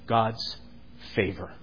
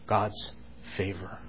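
The two takes are said the same way.

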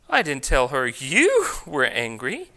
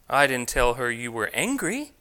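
First: The stress falls on the word you. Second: The stress falls on the word angry. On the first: A different person was said to be angry. "I told her someone else was angry" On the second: A different feeling was described. "I told her you were feeling something else"

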